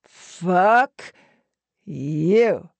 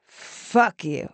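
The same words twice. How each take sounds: First: Loud first word, long pause, then the second; slow, punched-out insult through a smile; hard-smiling taunt. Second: Deliberate insult through a hard smile; smiling jab. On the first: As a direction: split the insult in two and savour it. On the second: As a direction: relish it, smiling. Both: A narrator's reading. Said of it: "smiling hard".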